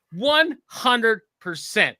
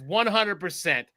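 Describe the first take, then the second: First: "one hundred percent" higher, louder and very slow; emphatic repeat. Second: Said in the usual way. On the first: Real, not acted. Sure of what Casey would do, "one hundred percent" slowly hammered out. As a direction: stretch out each word of "one hundred percent" with force.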